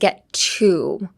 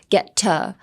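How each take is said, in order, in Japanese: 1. 母音は唇を前に突き出して発音する。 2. 母音は口を縦に開けて発音する。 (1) "instead of" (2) "open your mouth vertically when you say uh"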